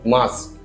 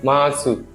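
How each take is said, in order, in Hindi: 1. अंतिम 'u' स्वर छोड़ दिया जाता है। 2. अंतिम 'u' स्वर साफ़ तौर पर बोला जाता है। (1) "but the pronunciation will be mas" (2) "It seems like masu"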